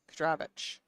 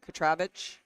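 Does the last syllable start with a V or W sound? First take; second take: V sound; V sound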